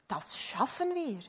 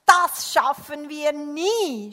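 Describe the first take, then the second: First: Composed, encouraging reply; calm reassurance. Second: Loud, slow wail of defeat; exasperated, rising to a drawn-out last word; puffing despair. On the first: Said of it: "sagte der andere". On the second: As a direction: groan it out loudly, overwhelmed. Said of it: "schnaufte der Mann". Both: A narrator's reading.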